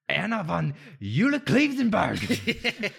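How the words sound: The name is said in a harsh, angry tone. The speaker calls it right.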